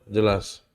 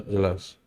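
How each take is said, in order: The two takes are said the same way.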